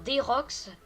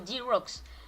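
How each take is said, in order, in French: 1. Le nom est prononcé avec un accent français. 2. Le nom est prononcé avec un accent anglais. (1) "En français ça va faire" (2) "avec l'accent anglais, ça fait plutôt"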